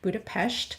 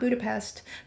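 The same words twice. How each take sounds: First: The name is said the local Hungarian way. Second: The name is said the common English way. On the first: The speaker calls it right. "that's how she told us to properly pronounce the city name" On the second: The speaker calls it wrong. "not Budapest"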